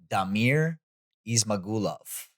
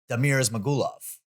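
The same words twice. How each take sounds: First: The name is said slowly and deliberately. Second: The name is said quickly and fluidly. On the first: It copies how the fighter himself says it. "I'm just gonna copy how I think he would say it" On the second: It is how a quick broadcast mention would say it. "if I said it quicker"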